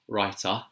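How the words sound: It is said in a London accent. "So the London accent would be writer"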